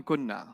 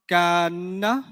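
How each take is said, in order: First: "kunna" with a short u and a double n; "kunna" said softly with short first vowel; shortened form. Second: "kana" said as kaan-na, long vowel then a held double n; "kana" as a drawn-out kaan plus na; theoretical form. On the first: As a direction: say "kunna" as kun-na, the long vowel dropped. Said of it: "What letter will they get rid of?". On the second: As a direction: stretch the first syllable of "kana", close it on n, then add na. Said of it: "they wanna add na". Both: Shown as a demonstration.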